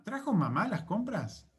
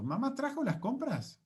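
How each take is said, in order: First: "¿Trajo mamá las compras?" pitched up as a question, weight on "mamá"; focus on MAMÁ. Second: "¿Mamá trajo las compras?" asked high, with "trajo" lifted most; focus on TRAJO. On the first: Teacher asking who brought the shopping, focus on MAMÁ. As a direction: ask it, lifting "mamá". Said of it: "me estoy concentrando en mamá". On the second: Teacher asking whether mum brought the shopping, focus on TRAJO. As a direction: ask it with the peak on "trajo". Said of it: "el foco de importancia está en el verbo trajo". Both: Shown as a demonstration.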